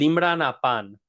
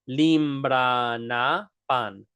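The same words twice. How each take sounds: First: The phrase is said at a normal speed. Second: The phrase is said slowly and carefully.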